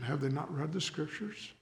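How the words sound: It is said as a kind question.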